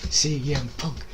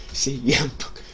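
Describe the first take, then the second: No difference in how they are said.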